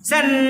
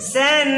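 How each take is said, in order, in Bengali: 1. এই শব্দাংশটি দ্রুত বলা হয়। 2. এই শব্দাংশটি ধীরে বলা হয়। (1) "এটা দ্রুত হইল" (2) "স্লো বসনে"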